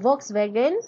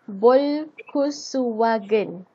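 First: It is said without added short vowels. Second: It is said with short vowels added.

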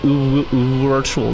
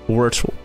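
First: The first sound is held too long. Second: The first sound is quick and short. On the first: The speaker calls it wrong. "You're spending a bit too long on the first letter" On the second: The speaker calls it right. "It's just virtual"

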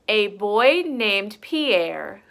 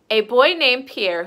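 First: It is read at a slower, normal pace. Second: It is read at a fast pace.

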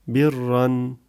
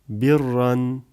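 No difference in how they are said.

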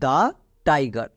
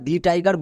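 First: 'The' is said with a short 'uh' vowel. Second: 'The' is said with a long 'ee' vowel. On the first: The speaker calls it right. "তাহলে এর উচ্চারণ কী দাঁড়াবে, দা tiger" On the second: The speaker calls it wrong. "একে আমরা দি tiger বলতে পারবো না"

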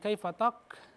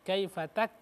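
First: The last syllable has a heavy, rounded 'o' vowel. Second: The last syllable has a light, open 'a' vowel. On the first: The speaker calls it wrong. "jangan kaifatok" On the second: The speaker calls it right. "Kaifatak dibuka sedikit"

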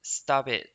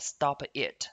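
First: The words are linked with a softened t. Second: The words are said separately with a full t. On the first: The speaker calls it right. "这里呢是可以连读的哦，所以我们在听的时候就会变成stop it" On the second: The speaker calls it wrong. "不要读得很中式化"

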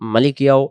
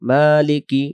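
First: The word ends with an added trailing vowel sound. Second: The word ends cleanly with no added sound. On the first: The speaker calls it wrong. "এই জায়গায় যেন মালিকিয়াও মালিকিয়াও মালিকিয়াও এমন না হয়" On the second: The speaker calls it right. "মালিকি কি স্পষ্ট"

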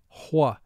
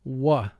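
First: A slight h sound comes before the w. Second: It starts directly with a w sound. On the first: "Some people pronounce WH with a slight H sound in front" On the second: "WH represents the sound wuh"

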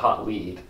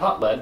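First: Lead rhymes with need, like following clues. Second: Lead rhymes with bed, like the metal. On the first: It refers to a clue to follow. The speaker calls it right. "but Hot Lead. A game about investigating criminals following leads" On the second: It refers to the heavy metal. The speaker calls it wrong. "Not Hot Lead"

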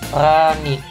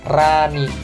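First: The R is lisped, with the tongue kept low. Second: The R is clear, with the tongue raised. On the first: This is how it was said in the past. The speaker calls it wrong. "dulu kan Rani" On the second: This is how it is said now. The speaker calls it right. "sekarang Rani. Aku usahakan lidahnya itu ke atas"

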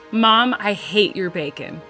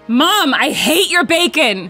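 First: It is said with little emotion. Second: It is said with strong emotion.

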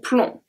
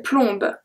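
First: The final B sound is silent. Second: The final B sound is pronounced. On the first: The speaker calls it right. "I say plomb" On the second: The speaker calls it wrong. "So I don't say plombe"

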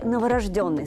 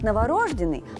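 First: The stress falls on the fourth syllable. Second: The stress falls on the third syllable. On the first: The speaker calls it right. "согласно литературной норме" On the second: The speaker calls it wrong. "помечается в большинстве словарей исключительно как «разговорный»"

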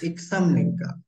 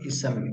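First: There is a k sound before the s. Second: There is no k sound before the s. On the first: The speaker calls it right. "iksamnika, iksamnika. I have explained you here" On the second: The speaker calls it wrong. "Not isamnika"

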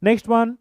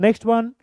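The two takes are said the same way.

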